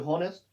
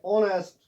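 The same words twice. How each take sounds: First: हॉनेस्ट starting with an audible H; wrongly sounded H. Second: ऑनेस्ट starting on the vowel; silent H. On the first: Teacher shows a wrong reading, H sounded in हॉनेस्ट. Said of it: "हम हॉनेस्ट मत पढ़ते हैं". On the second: Teacher gives the correction, H silent in ऑनेस्ट. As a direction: say ऑनेस्ट, dropping the H. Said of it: "H इसमें silent रहता है". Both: Shown as a demonstration.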